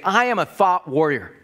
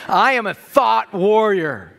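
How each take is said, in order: First: It is said plainly with ordinary energy. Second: It is said with more confident energy. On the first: "Why don't you say this with me?" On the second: "but just with a little more confidence"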